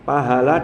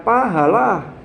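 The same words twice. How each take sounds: First: The word is said smoothly without a break. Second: The word has a break after paha. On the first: It means reward. The speaker calls it right. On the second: The meaning changes into something else. The speaker calls it wrong.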